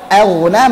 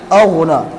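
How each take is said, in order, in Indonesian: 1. Bunyi hamza pembuka terdengar tipis dan ringan. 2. Bunyi hamza pembuka terdengar tebal dan berat.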